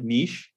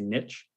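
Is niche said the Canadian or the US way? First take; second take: Canadian; US. First: Niche is said the French-influenced Canadian way. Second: Niche is said the American way. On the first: This is how Canadians say it. "We also say words like niche" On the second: This is how Americans say it. "in the U.S. they say niche"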